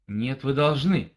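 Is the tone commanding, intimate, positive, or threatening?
commanding. It is said in a firm, commanding tone. "это где-то приказ"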